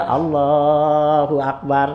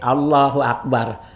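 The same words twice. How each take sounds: First: The phrase is drawn out long. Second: The phrase is said short and quick.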